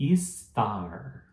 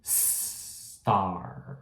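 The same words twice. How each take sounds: First: A vowel sound comes before the s. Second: The word begins directly with the s. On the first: The speaker calls it wrong. "Como a gente costuma falar?" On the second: The speaker calls it right. "é como se você estivesse começando com um S"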